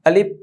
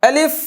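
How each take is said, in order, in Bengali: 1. শব্দে বাতাস মাঝপথে থেমে যায়। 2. শব্দের মধ্য দিয়ে বাতাস চলতে থাকে। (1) "অনেকে এই হরফটা পড়তে গেলে আলিফ এভাবে পড়ে, নট নট" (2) "পড়তে হবে আলিফ। হ্যাঁ, বাতাসটা চালু থাকবে।"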